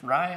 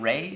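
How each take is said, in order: First: The name rhymes with 'eye'. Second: The name rhymes with 'day'. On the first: The speaker calls it right. "it's pronounced Rye" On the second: The speaker calls it wrong. "I've been saying Ray"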